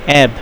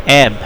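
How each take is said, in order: No difference in how they are said.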